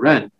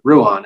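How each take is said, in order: First: The name is said like 'Ren'. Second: The name is said like 'Roo-an'. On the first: The speaker calls it right. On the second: The speaker calls it wrong.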